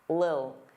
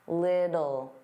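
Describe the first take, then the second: First: One short syllable, with the middle sound dropped. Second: Two syllables, with a soft D sound in the middle. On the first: "really reduce this word and it just sounds like lil" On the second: "generally pronounce the T's as soft D's"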